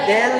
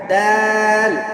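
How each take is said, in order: First: The vowel is a front e sound. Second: The vowel is an open a sound. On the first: The speaker calls it wrong. "দেল না" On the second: The speaker calls it right. "দাল দেল না"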